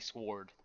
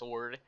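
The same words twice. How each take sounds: First: The W is clearly sounded in the word. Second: The W is silent in the word. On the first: "I enunciate the W's" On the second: "instead of just sword"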